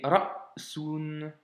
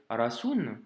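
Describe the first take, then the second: First: "ra'sun" very slowly, a clear stop after "ra"; "ra'sun": "ra", block, "sun"; correct sukun stop. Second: "rasoun" read smoothly, no stop after "ra"; "rasoun" flowing straight through, the mistake to avoid; wrong reading. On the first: Teacher gives the right reading "ra'sun" very slowly, clear stop. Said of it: "mais ra'sun". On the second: Teacher shows the wrong reading "rasoun", no stop. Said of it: "ça ne doit pas se lire rasoun". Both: Shown as a demonstration.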